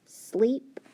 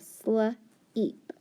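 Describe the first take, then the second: First: Sleep said as one quick whispered word; blended sleep. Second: Sl-eep, stretched apart slowly; stretched sleep. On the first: Teacher blending sleep after stretching it. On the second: Teacher stretching out sl-eep for students. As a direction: draw out the sounds of sl-eep. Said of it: "So I have sl-eep". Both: Shown as a demonstration.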